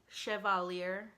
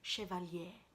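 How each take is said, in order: First: The name is said with an American accent. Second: The name is said with a French accent. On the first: "That's probably the very American way to say it" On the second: "I have a horrible French accent"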